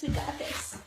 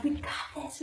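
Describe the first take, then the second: First: Whispered, breathy encouragement. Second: Said in the usual way. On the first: Real, not acted. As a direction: whisper it to yourself. Repeated encouragement, second whispered.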